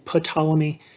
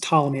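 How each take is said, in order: First: The starting P is pronounced. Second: The starting P is silent. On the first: The speaker calls it wrong. "A lot of students want to say Ptolemy. That is not correct" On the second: The speaker calls it right. "It's got a silent P"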